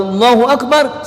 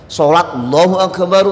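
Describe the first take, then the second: First: "Akbar" lifted high like calling the prayer; imam's takbir call. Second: Said in the usual way. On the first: Shown as a demonstration. Preacher mimics the imam calling Allahu Akbar, lifted call.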